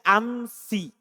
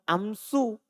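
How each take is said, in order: First: The word ends in an i vowel. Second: The word ends in a u vowel. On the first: This is the Hijazi reading. "kalau orang Hijaz... Dia baca amsi" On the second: This is the Bani Tamim reading in the nominative. "kalau Bani Tamim, dia baca dhamma amsu"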